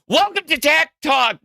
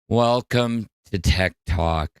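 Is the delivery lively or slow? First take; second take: lively; slow. First: It is said quickly and with energy. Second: It is said slowly and sleepily. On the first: This is how the speaker thought they sounded. "what I thought I was talking like was" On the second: This is how the speaker really sounded. "would talk really slow at the beginning"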